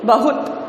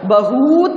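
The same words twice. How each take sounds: First: The second vowel is short. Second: The second vowel is long. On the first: The speaker calls it right. "तो छोटा sound छोटी मात्रा" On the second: The speaker calls it wrong. "बहुत नहीं"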